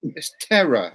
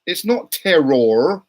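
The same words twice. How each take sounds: First: Terror said as tera with no r at the end; terror, no final r. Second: Not punched loud and slow; stress on not. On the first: Shown as a demonstration. Showing friends how terror sounds, dropping the r. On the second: Real, not acted. Correcting the friends, loud stress on not. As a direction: hit not hard and stretch it out.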